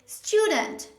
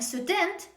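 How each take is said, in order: First: The stress is on the first syllable. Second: The stress is on the second syllable. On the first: The speaker calls it right. "the stress is at the beginning of a word, on the first syllable" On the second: The speaker calls it wrong. "Instead of saying student"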